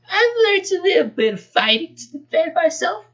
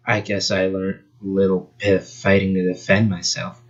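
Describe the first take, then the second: First: Put-on much higher, girly voice; squeaky girl voice. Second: Flat and unbothered, lower; deadpan voice. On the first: Fox girl answers Sonic in a high girly voice. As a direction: pitch way up into a silly girl. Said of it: "not that voice". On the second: Acted. Fox girl answers Sonic in a deadpan voice. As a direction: say it dry and bored. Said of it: "she'd have a deadpan voice".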